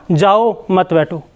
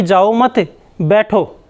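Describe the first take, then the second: First: Slow "जाओ", pause, then "मत बैठो" falling; pause after जाओ. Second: "जाओ मत" as one phrase, pause, "बैठो" falling; pause after मत. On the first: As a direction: break between "जाओ" and "मत". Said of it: "सुनने वाला क्या अर्थ निकाल रहा है". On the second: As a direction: break between "मत" and "बैठो". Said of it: "वो तो ये बोलना चाह रहा है". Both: Shown as a demonstration.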